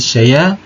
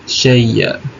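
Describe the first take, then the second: First: The glottal stop drops and the ya stays single. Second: The glottal stop merges into a doubled ya. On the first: "ketika waqaf dibaca dengan naqal akan bunyi" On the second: "ketika ibdal bersama dengan idgham berbunyi"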